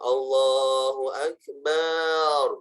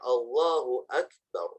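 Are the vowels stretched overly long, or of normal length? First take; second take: stretched; normal. First: The vowels are drawn out far too long. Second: The vowels have an ordinary length. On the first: The speaker calls it wrong. "banyak kepanjangan, tidak boleh" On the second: The speaker calls it right. "Harus benar"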